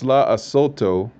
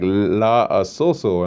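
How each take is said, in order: First: The last syllable is said with a t sound. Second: The last syllable is said with an s sound. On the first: The speaker calls it right. "But it's la asoto" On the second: The speaker calls it wrong.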